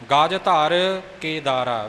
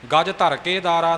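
First: The words are spoken separately with breaks. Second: The words are run together without breaks. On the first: The speaker calls it right. "ਵੱਖਰੇ ਵੱਖਰੇ" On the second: The speaker calls it wrong. "ਨਹੀਂ ਬੋਲਣਾ"

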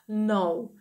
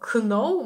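First: The word begins with an n sound, k silent. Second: The word begins with a pronounced k sound. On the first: The speaker calls it right. "ми читаємо know" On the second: The speaker calls it wrong. "Ми не читаємо know"

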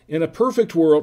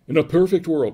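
First: It is read in a plain reading voice. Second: It is read in a dramatic movie-trailer voice.

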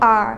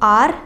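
First: The R is pronounced in the target foreign accent. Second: The R is pronounced in a typical Indian way. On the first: The speaker calls it right. "Instead of R. So it's like R" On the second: The speaker calls it wrong. "like us Indians usually say, ... usually they pronounce it like R"

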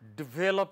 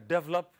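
First: The second vowel is clearly pronounced. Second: The first syllable is stressed; the second vowel is dropped.

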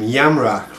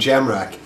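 First: The name is pronounced the German way. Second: The name is pronounced the English way. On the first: The family name was originally Germanic. "the Germanic name Jamrach" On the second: This is the anglicized form of the name. "rather than"

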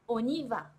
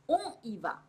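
First: The n links smoothly into the next vowel. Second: The words are said separately, without linking. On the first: The speaker calls it right. "これがくっついてオニバ" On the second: The speaker calls it wrong. "オンイバではなく"

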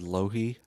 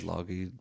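First: No G sound is heard in the middle. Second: A G sound is heard in the middle. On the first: "So like the G was silent" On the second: "I said Longheed"

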